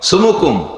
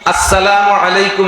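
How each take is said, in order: First: The greeting is mumbled and squeezed into few sounds. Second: The greeting is said fully, with every syllable clear. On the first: The greeting is given carelessly. The speaker calls it wrong. "ফোনে সালাম দেয় কিরকম? ... এটা টেডি সালাম, মোবাইল সালাম।" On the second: The greeting is given properly. The speaker calls it right. "পরিষ্কার করে বলবেন। ... সালাম হবে কেমন?"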